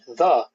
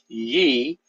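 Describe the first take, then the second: First: The word begins with a th sound. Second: The word begins with a y sound. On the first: The speaker calls it right. "it's pronounced the" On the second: The speaker calls it wrong. "Y E is not pronounced ye"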